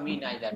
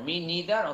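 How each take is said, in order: First: The first vowel of neither sounds like 'eye'. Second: The first vowel of neither sounds like 'ee'. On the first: "দুটো উচ্চারণই সঠিক আছে" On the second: "এটাকে নিদারও বলা যায়"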